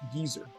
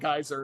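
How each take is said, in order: First: It is said the British way, like geezer. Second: It is said the American way, rhyming with riser.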